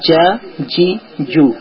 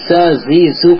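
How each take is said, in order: First: The j sound is firm and hard. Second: The j sound is soft and relaxed. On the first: The speaker calls it right. "কিন্তু এটা একটু শক্ত করা হবে" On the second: The speaker calls it wrong. "অধিকাংশ কিন্তু জা জি জুটাকে আমরা জা জি জু পরে দিই"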